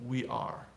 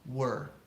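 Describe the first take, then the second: First: It is said as two full syllables. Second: It is said as one reduced syllable. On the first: "Notice how the pronunciation changes of we are" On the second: "We're is her purple burger"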